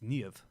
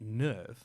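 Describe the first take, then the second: First: The name is pronounced the German way. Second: The name is pronounced the English way. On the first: The speaker calls it right. "all the names are based off Germanic names" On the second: The speaker calls it wrong. "So it's not NERV"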